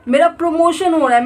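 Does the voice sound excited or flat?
excited. It is said happily, with excited feeling. The speaker convinces themselves it is true. The speaker calls it right. "ऐसे झूठ बोलो, feel करके झूठ बोलो"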